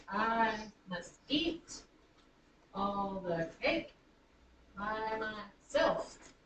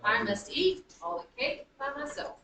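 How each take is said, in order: First: Very slow, stretching each foot, landing on "eat", "cake" and the SELF of "myself"; drawn-out anapests. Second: Lilting da-da-DUM beat, punching "eat" and "cake"; anapestic rhythm. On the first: Teacher marking feet for students, slow stressed scansion. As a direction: break into three feet: I must EAT, all the CAKE, by mySELF. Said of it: "I'm gonna do this". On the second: Teacher letting students feel the anapests, rhythmic stress. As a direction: stress EAT, CAKE and the SELF of myself, running the sentence together. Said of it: "you feel it".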